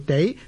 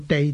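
First: The word is said on a rising tone. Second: The word is said on a level tone. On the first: This is the changed tone used in the place name. The speaker calls it right. "读做地係读上声" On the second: This is the ordinary pronunciation of the character. The speaker calls it wrong. "我哋唔读做地"

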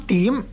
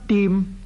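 First: It sounds the same as the word 点. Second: It sounds the same as the word 殿. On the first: "另一个音呢就是音点，同一点一画的点字呢是同音" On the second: "一个是音殿，即是同殿户的殿字同音"

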